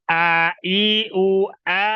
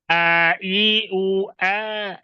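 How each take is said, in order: Both takes have the same delivery.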